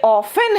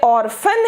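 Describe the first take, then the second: First: ऑफन with neither R nor T; contrasted pronunciation. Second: ऑर्फन with the R sounded before 'fan'; contrasted pronunciation. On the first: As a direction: say ऑफन slowly as 'off-en', no R. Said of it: "ये ऑफन है". (ऑफन बिना 'र' और 'टी' के) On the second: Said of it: "ये ऑर्फन है". (ऑर्फन में 'र' साफ़ बोलें) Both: Shown as a demonstration.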